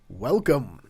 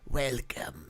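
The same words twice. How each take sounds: First: It is said in a normal voice. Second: It is said in a put-on spidery voice.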